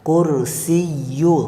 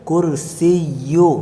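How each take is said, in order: Both takes have the same delivery.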